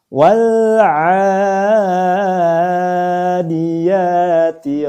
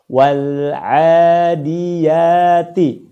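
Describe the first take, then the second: First: The long vowel is held for a long time. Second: The long vowel is held for a short time. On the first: The speaker calls it wrong. "Pembacaan seperti barusan itu terlalu lama, kepanjangan" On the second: The speaker calls it right. "cukup seperti itu. Jangan sampai kepanjangan"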